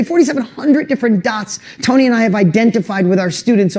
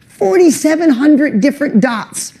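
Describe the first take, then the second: First: Said in the usual way. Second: "Forty-seven hundred" lifted much higher and punched; emphatic repeat. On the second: Real, not acted. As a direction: hammer home "Forty-seven hundred different dots" up high.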